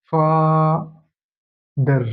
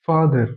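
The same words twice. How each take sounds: First: father drawn out very slowly, long first syllable, pause, then the second; split into syllables. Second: Said in the usual way. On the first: Shown as a demonstration. Teacher showing students where the word breaks, father said syllable by syllable. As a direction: break father into two separate, stretched syllables. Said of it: "ভেঙে যাচ্ছে". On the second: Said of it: "উচ্চারণ করতে যাব".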